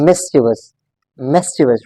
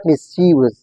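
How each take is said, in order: First: "mischievous" as MIS-chi-vus, falling; careful three-syllable "mischievous"; correct pronunciation. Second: "mischievous" as mis-CHEE-vus, long ee; mispronounced "mischievous", weight on the middle; wrong pronunciation. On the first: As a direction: stress the first beat of "mischievous". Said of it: "This word is pronounced as". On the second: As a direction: show the mistaken "mischievous" with a stretched middle syllable. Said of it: "It's not mischievous". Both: Shown as a demonstration.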